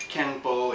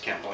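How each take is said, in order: First: KENPO with an N before the P; as written, with n. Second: KENPO said as kem-po, softer; as pronounced, with m. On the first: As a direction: say Kenpo the way it is spelled. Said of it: "it's written". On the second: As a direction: turn the n of Kenpo into an m. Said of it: "it's pronounced Kenpo". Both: Shown as a demonstration.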